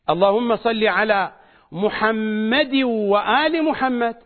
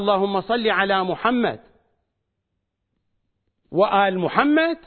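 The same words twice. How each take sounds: First: The first Muhammad runs straight on without stopping. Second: The first Muhammad ends cut off with a stop. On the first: The second part stays tied to the first. The speaker calls it right. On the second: The second part is cut off from the first. The speaker calls it wrong.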